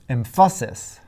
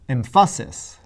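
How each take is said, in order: The two takes are said the same way.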